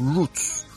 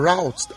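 First: It is said the speaker's own way, not American. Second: It is said the way Americans pronounce it.

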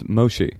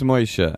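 First: The name is said literally as spelled. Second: The name is said with Yiddish pronunciation. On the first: The listener has the name wrong. "if you... fuck up my name, then it's Moshe" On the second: The listener is family. "If you're my uncle, it's Moshe"

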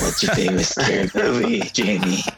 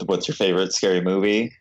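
First: It is said in a creepy Scream killer voice. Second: It is said in his normal voice.

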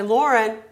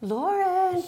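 First: The name is said in a firm, stern tone. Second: The name is said in a sweet, gentle tone. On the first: The child has gone back to sleep and must get up. "My tone is going to change" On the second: There is plenty of time and all is well. "I can be sweet"

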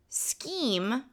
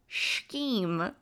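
First: The word begins with an sk sound. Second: The word begins with an sh sound. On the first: The speaker calls it right. "there's no shh" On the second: The speaker calls it wrong. "I put a shh on it"

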